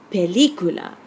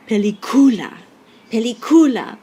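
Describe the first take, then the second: First: Película as pe-LEE-cu-la, louder on LI; stress on LI. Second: Película mispronounced as peli-COO-la, loud and high COO; stress on second-last syllable. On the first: Teacher showing what we really say, LI stressed. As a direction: punch the LI in película. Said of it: "But that's not what we say". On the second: Teacher showing what rule one would give, CU stressed loudly. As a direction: punch the CU in película. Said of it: "stress should be on the second to last syllable". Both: Shown as a demonstration.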